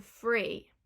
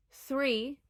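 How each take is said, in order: First: "free" for three, F replacing TH; Cockney th-fronting. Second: Said in the usual way. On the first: Shown as a demonstration. Teacher showing how Cockneys say three, as "free". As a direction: start "free" with an F. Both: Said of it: "will turn into free".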